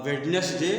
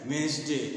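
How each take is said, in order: First: The word is said with every letter sounded out. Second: The word is said without the middle d sound. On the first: The speaker calls it wrong. "आप वेडनेसडे नहीं बोलते" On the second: The speaker calls it right. "इसको बोलते हैं वेंसडे"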